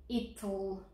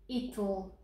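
Both takes have the same delivery.

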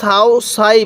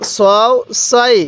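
First: The vowel is an open 'a' sound. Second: The vowel is a rounded 'o' sound. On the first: The speaker calls it wrong. "অনেকে সাও সাই পড়ব, এরকমভাবে পড়ব না।" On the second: The speaker calls it right. "কীভাবে পড়ব?"

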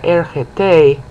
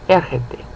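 First: The stress is on the last syllable. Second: The stress is on the first syllable. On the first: The speaker calls it wrong. "You don't stress the last syllable" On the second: The speaker calls it right. "So you stress the root verb"

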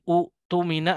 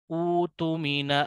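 First: The first vowel is kept short. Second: The first vowel is drawn out long. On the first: The speaker calls it wrong. "Bukan utumina" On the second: The speaker calls it right. "dibaca dengan kaidah badal / Cara membacanya utumina amanatah"

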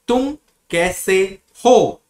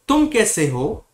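First: The phrase is broken up with pauses between parts. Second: The phrase is said smoothly together without pauses. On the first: "I'm breaking whole word, like" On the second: "you have to say it together, like"

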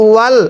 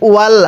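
No difference in how they are said.

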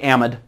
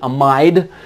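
First: The word is said in an American pronunciation. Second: The word is said in a British pronunciation. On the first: "Yankees out here say amide" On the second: "For anyone who's watching this from Great Britain, I think, and Australia, you guys might pronounce it amide"

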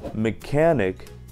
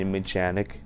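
First: The ch is pronounced as k. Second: The ch is pronounced as ch. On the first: The speaker calls it right. "в некоторых случаях как К" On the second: The speaker calls it wrong. "а не"

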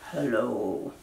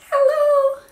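First: It is said in a low voice. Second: It is said in a high voice.

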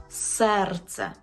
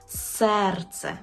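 The two takes are said the same way.

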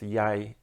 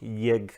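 First: The vowel sounds like 'ai'. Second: The vowel sounds like a plain 'e'. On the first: This is the standard literary form. "Normalnie w języku literackim to jest jaj" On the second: This is a dialect form. "W niektórych dialektach to jest eg, jeg"

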